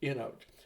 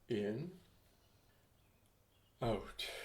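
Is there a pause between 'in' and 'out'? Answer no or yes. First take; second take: no; yes. First: The two words run together as one. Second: There is a pause between the two words. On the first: The two words become one new word. "Make in, out, in and out, one word" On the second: The words follow the in-breath and the out-breath separately. "some people do it on the inhale in their mind"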